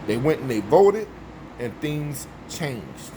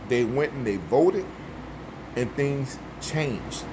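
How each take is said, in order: Both takes have the same delivery.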